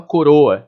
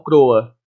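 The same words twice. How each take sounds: First: Said in the usual way. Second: "croa" with the first o dropped, two syllables cr-oa; "croa" run together like in Portugal; clipped croa. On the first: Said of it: "ele tem uma croa". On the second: Shown as a demonstration. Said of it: "o tom português de Portugal".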